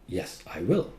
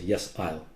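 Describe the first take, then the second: First: The word will is said in full. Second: The word will is contracted onto I. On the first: The speaker calls it right. "Full. You're emphasizing" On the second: The speaker calls it wrong. "You don't say"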